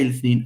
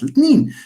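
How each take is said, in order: First: The middle consonant is a 'th' sound. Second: The middle consonant is a plain 't' sound. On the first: It sounds foreign to Moroccan Arabic speakers. "you say الاثنين" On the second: It sounds native to Moroccan Arabic speakers. "and not الاثنين"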